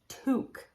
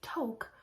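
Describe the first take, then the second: First: It is said the way the French word sounds. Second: It is said as its English spelling suggests. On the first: The speaker calls it right. "this is actually a French word, and it's toque" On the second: The speaker calls it wrong. "they say toque, which on the face of it, if you look at the English language, that makes total sense"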